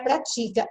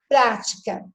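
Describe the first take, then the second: First: "pratica" stressed on the middle syllable, pra-TI-ca; accent removed. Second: "prática" stressed on the first syllable, PRÁ-ti-ca; accented form. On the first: Teacher removing the accent, middle-syllable stress on "pratica". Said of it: "tira o acento, vai dar pratica". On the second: Teacher showing what the accent does, first-syllable stress on "prática". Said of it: "tira o acento". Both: Shown as a demonstration.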